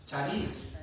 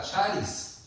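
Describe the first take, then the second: First: "charis" with the final I stressed, cha-RIS; stress on last syllable of charis. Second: "charis" with the A stressed, CHA-ris; stress on first syllable of charis. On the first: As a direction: shift the weight to the end of "charis". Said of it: "charis o charis, lleva acento". ("charis" con acento en la I, cha-RÍS) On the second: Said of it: "lleva acento en la, en la A". ("charis" con acento en la A, CHÁ-ris) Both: Shown as a demonstration.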